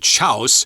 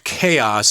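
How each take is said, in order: First: The word is pronounced as its spelling suggests. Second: The word is pronounced the usual standard way. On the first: The speaker calls it wrong. "we don't say chaos, like I thought it was read when I was young" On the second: The speaker calls it right. "it's chaos, actually"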